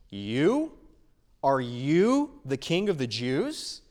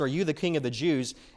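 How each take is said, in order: First: The question is asked in a surprised, taken-aback tone. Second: The question is asked in a neutral tone.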